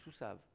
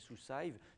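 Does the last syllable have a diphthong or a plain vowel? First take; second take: plain vowel; diphthong. First: The last syllable has a plain vowel, no glide. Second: The last syllable keeps a glide, like a diphthong. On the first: The speaker calls it right. "c'est sous-save" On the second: The speaker calls it wrong. "j'entends les étudiants prononcer sous-save, ça c'est faux"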